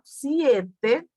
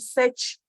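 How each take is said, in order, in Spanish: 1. La primera vocal se desliza como 'ie'. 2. La primera vocal es una 'e' simple. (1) "tiene un diptongo aquí" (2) "no podemos decir sech"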